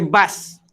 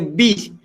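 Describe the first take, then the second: First: The vowel after b is an a sound. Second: The vowel after b is an i sound. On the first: The speaker calls it wrong. "kita tukar atas" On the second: The speaker calls it right. "baris bawah"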